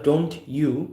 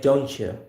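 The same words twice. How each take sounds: First: The t and y are said separately. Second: The t and y blend into one sound. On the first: "Instead of don't you" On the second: "we're gonna say don't you"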